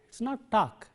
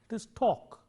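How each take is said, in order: First: The vowel is said with unrounded, spread lips. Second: The vowel is said with rounded lips. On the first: The speaker calls it wrong. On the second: The speaker calls it right.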